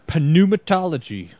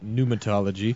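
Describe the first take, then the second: First: The initial p sound is pronounced. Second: The initial p sound is silent. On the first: "I'm against not pronouncing silent letters" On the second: "Some people say pneumatology"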